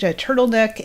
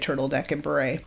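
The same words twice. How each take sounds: First: Said in the usual way. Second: Softer, trailing repeat of "turtleneck"; quiet echo. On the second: Retold or imitated. Arnold softly echoing Oliver's list of clothes, quiet echo. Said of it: "Arnold echoes Oliver's orders".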